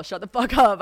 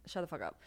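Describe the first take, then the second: First: Put-on loud mean-girl snap. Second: Put-on muttered mean-girl comeback; quiet dismissive retort. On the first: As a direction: shut the fuck up, said much louder and higher. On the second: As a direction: shut the fuck up, said much softer and flat. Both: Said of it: "I sound like such a Regina George".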